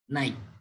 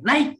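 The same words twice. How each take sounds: First: The word is said short and flat. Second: The word is said loud, long and excited. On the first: It just means moving upward. "bunyi segmental itu naik" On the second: The person is happy about a big gain. "nada yang nyaring, ... bukan nada yang naik tapi intonasi yang panjang"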